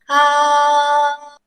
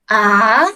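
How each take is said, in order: First: The pitch stays high and level. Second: The pitch dips down then rises. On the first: It sounds like happy singing. "el primer tono yo siempre lo comparo a cantar en el coro" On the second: It expresses disbelief or doubt. "primero baja y luego sube"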